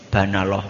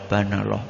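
Both takes have the same delivery.

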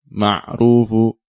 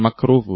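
First: The middle consonant is a throaty ain sound. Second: The middle consonant is a k sound. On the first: The speaker calls it right. "ain ma'rufu" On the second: The speaker calls it wrong. "bukan makrufu bukan kaf tapi ain"

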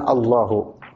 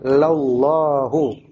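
First: The word begins directly with the al sound. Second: The word begins with an added la syllable. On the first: The speaker calls it wrong. "bukan Allahu" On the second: The speaker calls it right. "Yang benar bacanya adalah lallahu"

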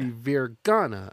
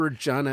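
First: The name sounds like Virgana, with a hard g. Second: The name sounds like the state Virginia. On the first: The speaker calls it right. "It must be Virgana or something" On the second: The speaker calls it wrong. "It's not Virginia"

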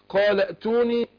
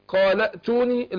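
The two takes are said the same way.

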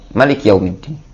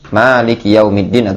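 First: The first vowel of Malik is kept short. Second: The first vowel of Malik is drawn out long. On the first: The one who rules as king. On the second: The one who owns.

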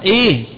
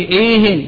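First: The word ends without an added n sound. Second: The word ends with an added n sound. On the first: It asks for more of the current topic. "فهو معرفة" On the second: It asks for more talk on any topic. "فإذا وجدت التنوين نطقت به إيه فهو نكرة"

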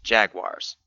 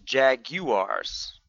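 First: The word is said with an American pronunciation. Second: The word is said with a British pronunciation. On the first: "The American English pronunciation is jaguars" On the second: "The British pronunciation is jaguars"

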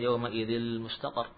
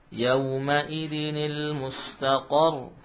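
First: The nun sound is merged into the following l. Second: A clear nun with an i vowel precedes the l. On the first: The speaker calls it wrong. "jangan dibaca yauma idil mustaqar ya, bukan idgham ya" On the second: The speaker calls it right. "Kita baca yauma idinil mustaqar"

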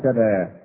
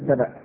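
First: The word ends in an open vowel. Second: The word ends in a glottal stop. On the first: This is the eased form that spread through frequent use. "فجعلوها سبا" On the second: This is the original form of the word. "كلمة سبا بالهمزة"

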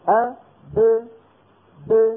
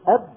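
First: The final b is released with a short bounce. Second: The final b is held closed without release. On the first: "يقولون أب ب" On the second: "عوضا عن أن يقولوا أب"

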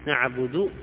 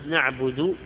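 First: The word ends with a drawn-out long u vowel. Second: The word ends with a short u vowel. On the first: The speaker calls it wrong. "سوها واو" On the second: The speaker calls it right. "بدل الضمة"

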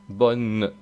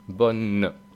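Both takes have the same delivery.

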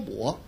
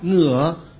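First: It uses the standard Mandarin pronunciation. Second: It uses the local dialect pronunciation. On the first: "不说我" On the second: "叫我"

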